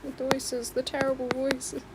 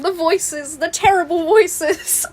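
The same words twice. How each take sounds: First: Soft, understated meme quote; quiet echo. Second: Raised, louder meme outcry; mock screaming. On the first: Acted. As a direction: repeat it softly, almost to yourself. Repeats the meme under breath. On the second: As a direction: build into a half-screamed theatrical cry. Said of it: "it just starts screaming and going".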